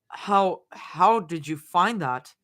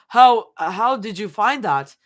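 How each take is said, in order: First: It is said in a normal voice. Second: It is said in a high voice.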